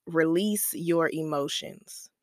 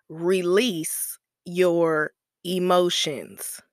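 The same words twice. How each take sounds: First: Said in the usual way. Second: Slow it right down and press every word of Release your emotions; slow emphatic repeat. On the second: Shown as a demonstration. Podcast host drilling her first healing rule into listeners, slow and emphatic. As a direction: Release your emotions, dragged out slowly, each word leaned on. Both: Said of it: "so the first rule is".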